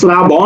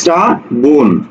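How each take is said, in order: First: The word begins with an 'sh' sound. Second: The word begins with an 's' sound. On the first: The speaker calls it wrong. "আমরা শ্রাবণ বলি না" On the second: The speaker calls it right. "বলি কি শ্রাবণ। ... রফলা থাকলে সেটা দন্ত স হয়ে যায়"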